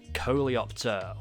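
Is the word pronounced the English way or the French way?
English. The word is pronounced with English sounds.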